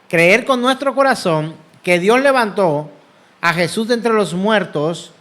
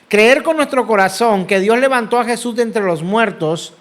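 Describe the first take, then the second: First: The sentence is spoken at a slower pace. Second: The sentence is spoken at a normal pace.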